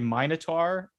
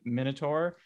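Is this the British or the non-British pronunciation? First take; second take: British; non-British. First: It is said with a British vowel pronunciation. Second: It is said with a non-British vowel pronunciation. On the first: "People in the UK say Minotaur" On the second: "instead of Minotaur"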